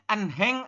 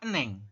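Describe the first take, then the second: First: An h sound is heard in the middle. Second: No h sound is heard in the middle. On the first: The speaker calls it wrong. "Ini dibacanya enheng apa eneng?" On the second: The speaker calls it right. "dibacanya adalah eneng"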